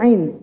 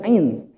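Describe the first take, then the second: First: The vowel is drawn out long. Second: The vowel is kept short. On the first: The speaker calls it right. "Ain kan bunyinya ain" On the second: The speaker calls it wrong. "bukan ain"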